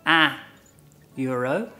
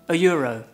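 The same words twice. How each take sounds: First: It is said slowly. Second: It is said quickly.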